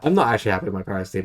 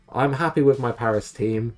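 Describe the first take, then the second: First: "not" hit firmly, rest rushed fast; fast correction, punch "not"; stress on not. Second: Upbeat claim he doesn't mean; mock cheerful. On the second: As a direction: say it brightly, as if content. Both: Shown as a demonstration. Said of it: "I say that".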